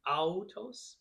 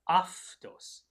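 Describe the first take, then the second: First: The first syllable sounds like 'ow'. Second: The first syllable sounds like 'af'. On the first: This is how the spelling looks. "looks like it might be autos" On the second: This is the pronunciation used here. "in this pronunciation, it becomes an F or a V"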